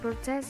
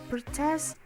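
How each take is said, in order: First: The stress is on the first syllable. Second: The stress is on the second syllable. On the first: It is used as a noun. "the second syllable doesn't completely lose stress in this word, but is reduced to secondary stress" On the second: It is used as a verb. "protest is a verb"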